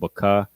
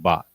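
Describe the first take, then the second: First: The word ends with a full vowel sound. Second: The word ends with a consonant sound. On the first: "instead of baka" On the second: "you pronounce it bak"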